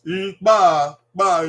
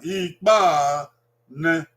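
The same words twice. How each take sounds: First: Ikpa drawn out and falling, then ba; dragged down. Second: Said in the usual way. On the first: Shown as a demonstration. Teacher showing parents how Ikpa is dragged down in pitch. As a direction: pull the tune down through Ikpa. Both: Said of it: "you drag it down".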